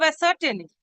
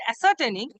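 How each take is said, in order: First: Said in the usual way. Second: Ascertaining given firm deliberate weight; stress on ascertaining. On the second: Shown as a demonstration. Counsel to the judge, stressing ascertaining as the key word. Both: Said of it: "may I put some emphasis on this word".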